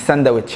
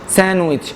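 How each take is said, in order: First: The middle d sound is pronounced. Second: The middle d sound is left out. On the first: The speaker calls it wrong. "مش ساندويتش" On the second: The speaker calls it right. "حرف الدي في النص"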